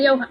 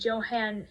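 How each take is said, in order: First: The name begins with a Y sound. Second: The name begins with a J sound. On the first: The speaker calls it right. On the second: The speaker calls it wrong.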